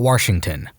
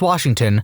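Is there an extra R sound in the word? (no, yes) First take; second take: yes; no. First: It is said with an extra R sound. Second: It is said without an extra R sound. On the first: The speaker calls it wrong. "not Washington" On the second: The speaker calls it right. "It is Washington"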